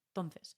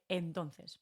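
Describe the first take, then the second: First: The first vowel is dropped, said quickly. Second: The first vowel is clearly pronounced. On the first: "no suena mucho la E" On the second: "en lugar de entonces"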